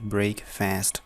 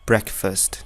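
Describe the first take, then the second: First: Said as two words, 'brake' plus 'fast'. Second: Said as one word, 'breck' plus a weak 'fust'. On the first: The speaker calls it wrong. "यो एउटा एउटा पढ्ने हो भने यो ब्रेक हो" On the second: The speaker calls it right. "तर यो दुईटा सँगै हुँदाखेरि चाहिँ टोटली डिफ्रेन्ट हुन्छ"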